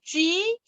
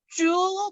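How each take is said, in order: First: The vowel is a fronted, ü-like rounded sound. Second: The vowel is a plain rounded oo sound. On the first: The speaker calls it right. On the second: The speaker calls it wrong. "주 말고"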